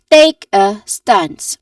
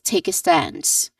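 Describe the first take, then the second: First: The stressed words are said very loudly. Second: The stressed words are only slightly louder. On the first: The speaker calls it wrong. "really loud ... that will sound unnatural" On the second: The speaker calls it right. "we just say it more naturally. Like there's just subtle difference in their um, volumes"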